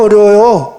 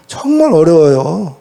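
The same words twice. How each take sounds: First: Said in the usual way. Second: 정말 drawn out and weighted, slowly; emphatic slow answer with 정말 stretched; stress on 정말. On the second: Shown as a demonstration. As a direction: lean hard on 정말 and slow down.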